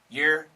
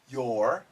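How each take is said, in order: First: It is said very quickly. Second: It is said a little faster. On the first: "And really fast" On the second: "A little bit faster"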